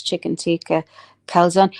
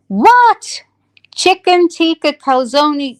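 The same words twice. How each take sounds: First: Said in the usual way. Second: High, loud, scandalised mock disbelief; mock outrage. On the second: Scolding herself over last night's calzone, mock outrage. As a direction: exclaim in hammed-up horror, drawing out the dish.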